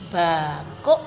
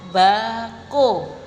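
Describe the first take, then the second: First: The word ends with a clipped stop. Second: The word ends openly on the vowel.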